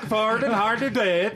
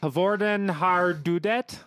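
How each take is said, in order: First: It is said in an exaggerated mock-Scandinavian chef accent. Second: It is said in a plain, ordinary attempt.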